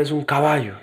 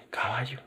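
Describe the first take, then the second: First: Said in the usual way. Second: "Caballo" murmured very softly as a doubting question; baffled. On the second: Retold or imitated. Student doubting the acting teacher's exercise, "Caballo" softly baffled. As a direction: say "Caballo" under your breath, rising in disbelief.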